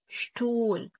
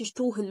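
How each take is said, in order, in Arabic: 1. لا يُسمع صوت "h" في الوسط. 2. يُسمع صوت "h" في الوسط. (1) "لا شتول شتول" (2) "ما تقولش شتوهل"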